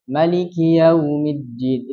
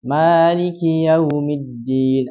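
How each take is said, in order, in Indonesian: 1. Vokal pertama "ma" dibaca pendek. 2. Vokal pertama "ma" dibaca panjang. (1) "bisa memendekkannya" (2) "Bisa memanjangkan ma"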